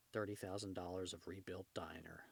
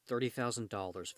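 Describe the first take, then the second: First: "Thirty thousand dollars" said softer and dry; the narrator's muted ironic aside; quiet wry echo. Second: Said in the usual way. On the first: A narrator's reading. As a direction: drop the voice for the punchline.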